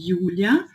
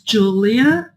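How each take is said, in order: First: The name is pronounced the German way. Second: The name is pronounced the English way. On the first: "se eu falo em alemão" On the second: "Se eu falo em inglês"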